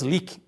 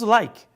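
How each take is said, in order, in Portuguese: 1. A vogal é um 'ee' longo. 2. A vogal é um ditongo 'eye'. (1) "não falamos leak" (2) "Falamos like"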